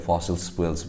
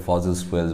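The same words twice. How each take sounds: First: "ফসিল fuels" with a hissed s in the first word; fossil with S. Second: "ফসিল fuels" with a buzzing z in the first word; fossil with Z. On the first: Teacher showing students another variant, "ফসিল" said with an s. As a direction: say "ফসিল" as "fossil", s running into "spuels". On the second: Teacher showing students one common variant, "ফসিল" said with a z. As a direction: say "ফসিল" as "fozzil", z in the middle. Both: Shown as a demonstration. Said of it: "অনেক রকমের উচ্চারণ করে".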